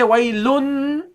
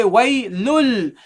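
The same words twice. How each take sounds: First: "waylun" ending in a held n; wrong noon ending. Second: "waylul" slowly, ending on a held l; correct lam ending. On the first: Teacher shows what you don't say, noon ending. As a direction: finish "waylun" on a humming n. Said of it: "You don't say waylun". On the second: Teacher shows what you say, lam ending. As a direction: finish "waylul" on l instead of n. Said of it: "You say waylul". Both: Shown as a demonstration.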